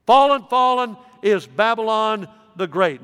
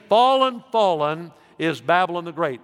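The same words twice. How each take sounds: First: Put-on a preacher proclaiming Babylon's fall with force; emphatic proclamation. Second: A pastor quoting the angel's cry; first proclamation. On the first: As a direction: thunder it as the angel's mighty cry. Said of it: "It is emphatic". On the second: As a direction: announce fallen, fallen is Babylon the Great. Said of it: "He says it twice. It is emphatic". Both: Shown as a demonstration.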